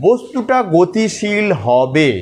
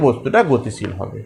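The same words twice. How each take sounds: First: Slow, drawn-out "বস্তুটা গতিশীল হবে" with "গতিশীল" weighted and a rise at the end; stressed key phrase. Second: Said in the usual way. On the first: Shown as a demonstration. Teacher stressing "গতিশীল" for students, slow and emphatic. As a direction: lean hard on "গতিশীল" and stretch the whole phrase slowly. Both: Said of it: "এই শব্দটার উপর জোর দিতে হবে".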